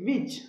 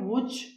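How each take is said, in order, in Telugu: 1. మొదటి శబ్దం 'v' లాగా ఉంది. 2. మొదటి శబ్దం రౌండ్ లిప్ 'w'. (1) "డబ్ల్యూని వీలా చెప్పాలండి" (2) "అలా చెప్పకూడదు"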